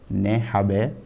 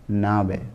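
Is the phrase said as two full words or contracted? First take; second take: full; contracted. First: Both words are said in full, two words. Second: The words are merged into one short word.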